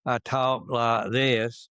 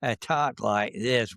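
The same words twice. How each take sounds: First: Slow Georgia Southern accent demo. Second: Slow, crisp upper Midwest Wisconsin accent. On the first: Telling the interviewer how he talked in Georgia, in a slow Southern accent. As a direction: slowly show off the Southern Georgia accent you grew up with. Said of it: "when I was down and came from Georgia". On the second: Showing the interviewer his crisp Wisconsin accent after moving north. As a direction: say it slowly and hard-edged, in a Wisconsin accent. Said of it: "accent from the upper Midwest is". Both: Shown as a demonstration.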